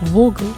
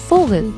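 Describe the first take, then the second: First: The word begins with a V sound. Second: The word begins with an F sound. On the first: The speaker calls it wrong. "I don't say like Vogel" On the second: The speaker calls it right. "I pronounce it like Vogel"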